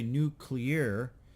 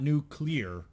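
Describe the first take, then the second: First: It is said with a Southern US pronunciation. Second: It is said with the standard pronunciation.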